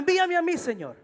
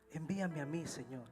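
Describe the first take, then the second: First: It is said in an enthusiastic, eager tone. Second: It is said in a humble, subdued tone.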